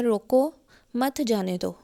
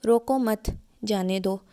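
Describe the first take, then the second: First: रोको, then a break, मत जाने दो together; pause after रोको. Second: रोको मत joined, a break, then जाने दो; pause after मत. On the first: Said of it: "मैंने दरमियान में वक्फ़ा दोनों में डिफरेंट किया". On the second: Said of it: "दूसरी तरीके से अगर मैं इसको बोलूँ". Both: Shown as a demonstration.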